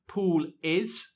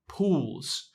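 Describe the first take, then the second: First: Both words are said in full. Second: The two words merge into one syllable. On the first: "We contract pool is into pools" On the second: "We contract pool is into pools"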